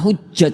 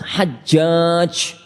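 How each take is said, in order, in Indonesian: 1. Vokal pertama terdengar seperti 'u'. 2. Vokal pertama terdengar seperti 'a'. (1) "bukan hujjaj mas"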